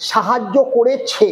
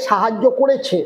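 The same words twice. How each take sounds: First: Slow করেছে, the last syllable ছে set off; stress on final ছে. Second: Said in the usual way. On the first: Shown as a demonstration. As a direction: stretch করেছে to show its ছে ending. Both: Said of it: "ছে উচ্চারণে চলে আসলো".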